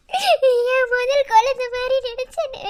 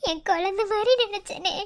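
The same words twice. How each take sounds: First: Slow, swelling, weeping plea; anguished lament. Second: Tearful lament. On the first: Wife to husband, slow and weeping. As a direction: let it break open slowly. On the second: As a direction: hold back the tears, barely voiced. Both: Acted. Repeats line, second more broken.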